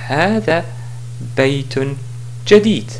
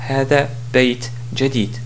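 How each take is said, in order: First: The middle word keeps its full 'un' ending. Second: The middle word is cut short on 't'. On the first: The speaker calls it right. "Si je voulais continuer, je dis" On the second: The speaker calls it wrong. "et non pas"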